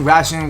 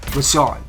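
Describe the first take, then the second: First: The last syllable sounds like 'shun'. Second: The last syllable sounds like 'shawn'. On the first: The speaker calls it wrong. "I'm saying Ration, which is not pronounced right" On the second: The speaker calls it right. "his name was pronounced Rashawn"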